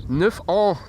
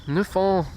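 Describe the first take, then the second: No difference in how they are said.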